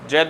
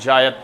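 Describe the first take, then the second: First: The word is said as one short syllable. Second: The word is said as two syllables. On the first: The speaker calls it wrong. "जैद नहीं" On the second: The speaker calls it right. "जायद crop"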